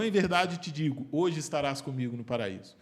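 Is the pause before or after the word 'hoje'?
before. The pause comes before the word hoje.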